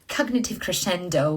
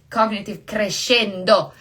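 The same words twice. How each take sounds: First: Crescendo is pronounced with an English accent. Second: Crescendo is pronounced with an Italian accent. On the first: "I say it so English" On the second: "it's an Italian word"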